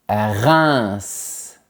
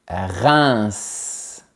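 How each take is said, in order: No difference in how they are said.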